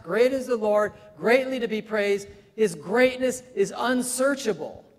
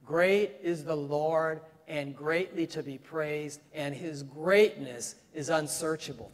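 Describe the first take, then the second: First: High, loud preaching of great; proclaimed with rising fervor; emphatic repetition. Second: Said in the usual way. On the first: Acted. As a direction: lift every great word up high. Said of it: "Three times". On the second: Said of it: "You know the verse".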